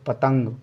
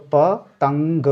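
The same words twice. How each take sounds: First: Said in the usual way. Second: पतंग said slowly and clearly; slow demo. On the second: Shown as a demonstration. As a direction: stretch out पतंग carefully. (धीरे और साफ़) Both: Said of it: "ता पे है".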